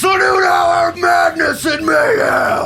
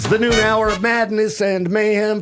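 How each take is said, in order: First: It is said with more energy and excitement. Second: It is said with little energy or excitement. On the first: The speaker calls it right. "There we go" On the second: The speaker calls it wrong. "I want more excitement out of that"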